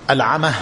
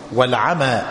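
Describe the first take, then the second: First: "العمى" closed with an audible h, like العمه; final haa sound. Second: "والعمى" with an open long aa at the end; long final vowel. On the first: Teacher repeating dictation for students, final haa sounded in "العمى". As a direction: end "العمى" on haa instead of a long a. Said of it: "بالهاء". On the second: Teacher repeating dictation for students, long open ending on "والعمى". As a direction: draw out the last vowel of "والعمى", no h. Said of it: "بالياء الممدودة". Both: Shown as a demonstration.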